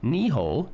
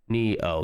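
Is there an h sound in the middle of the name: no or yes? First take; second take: yes; no. First: An h sound comes before the last vowel. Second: No h sound comes between the vowels. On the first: The speaker calls it wrong. "am I saying that right?" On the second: The speaker calls it right. "It's probably Neo"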